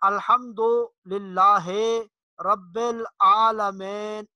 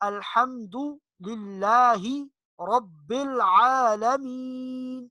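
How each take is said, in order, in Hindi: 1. स्वरों में स्थानीय मजहूल जैसी आवाज़ है। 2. स्वरों में शुद्ध अरबी जैसी आवाज़ है। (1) "ये मजहूल है" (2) "अरबी लहजे में"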